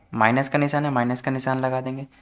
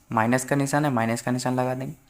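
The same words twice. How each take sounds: The two takes are said the same way.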